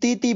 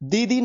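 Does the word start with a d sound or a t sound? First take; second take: t sound; d sound. First: The word begins with a t-like sound. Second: The word begins with a voiced d sound. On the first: The speaker calls it right. "बल्कि तीती बनेगा" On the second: The speaker calls it wrong. "दीदी नहीं बनेगा"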